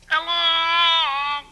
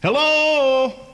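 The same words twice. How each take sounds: First: It sounds muffled, as if from inside a glass. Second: It is said in his direct normal voice.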